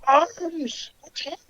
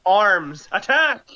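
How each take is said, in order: First: High, small, faint creature cry; muffled distant yell. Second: Clearer, fuller called-out command; mock battle yell. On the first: Acted. Game master voices enemy calling his arms, faint high yell. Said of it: "he yells out". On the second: Game master repeats order for players who didn't hear, mock yell. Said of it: "We still didn't hear you".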